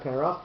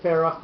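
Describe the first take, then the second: First: "Perach" with a hard P at the start, the wrong form; hard P sound. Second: "Ferach" with a soft F, no hard P at the start; soft F sound. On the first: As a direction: say "Perach" with a plain P as the counterexample. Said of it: "So why is it Ferach". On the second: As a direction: say "Ferach" with F, like a teacher correcting. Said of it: "not Perach". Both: Shown as a demonstration.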